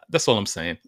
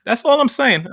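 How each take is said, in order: First: Said in the usual way. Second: Higher and louder, hammering it home; emphatic. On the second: Real, not acted. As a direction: burst out with it, much higher. Repeats closing line, much louder.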